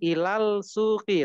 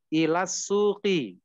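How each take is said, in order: First: The L is pronounced before the S. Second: The L is silent, merged into a doubled S. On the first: The speaker calls it wrong. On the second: The speaker calls it right. "langsung dileburkan kepada huruf syamsiahnya itu seperti sehingga seperti bertasdid"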